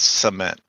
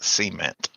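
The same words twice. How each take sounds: First: The word is pronounced in a standard way. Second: The word is pronounced in an Appalachian-sounding way. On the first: The speaker calls it right. "it's cement" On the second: The speaker calls it wrong. "you sound like you're from the the, the hills of Appalachia when you say it wrong"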